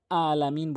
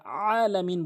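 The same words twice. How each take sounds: First: আলামিন opening on a plain, light আ; hamza instead of ayn. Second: আলামিন opening on a long pressed ayn; correct throaty ayn. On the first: Teacher showing the forbidden form, plain hamza in আলামিন. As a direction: start আলামিন with an unpressed hamza. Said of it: "বলা যাবে না". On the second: Teacher showing the required form, pressed ayn in আলামিন. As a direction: squeeze the first আ of আলামিন from mid-throat. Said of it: "বলতে হবে". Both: Shown as a demonstration.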